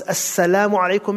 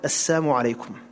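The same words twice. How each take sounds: First: "Assalamu" with a full clear "sa-la-mu"; proper greeting. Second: "Assalamu" said as "as-samu", dropping the l sound; twisted greeting. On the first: Shown as a demonstration. Teacher gives the correct greeting, every syllable clear. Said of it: "Peace be upon you". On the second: Retold or imitated. Teacher imitates the mocking twisted greeting, l dropped. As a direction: say "Assalamu alaikum" slurred into "as-samu alaikum". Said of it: "Death upon you".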